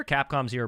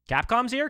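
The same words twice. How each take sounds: First: Said in the usual way. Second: "Capcom's here?" jumped high and louder with a rising end; can't believe it, ask it sharply; surprised. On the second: Real, not acted. Capcom joins the server.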